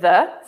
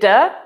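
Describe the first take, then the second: First: It is said with a standard English accent. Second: It is said with an Italian-sounding accent. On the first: "instead of "the."" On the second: "he'll say "the""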